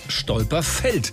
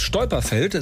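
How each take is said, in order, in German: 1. Die Betonung liegt auf der letzten Silbe. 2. Die Betonung liegt auf der ersten Silbe. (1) "sondern aufs Stolperfeld" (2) "nicht aufs Stolperfeld"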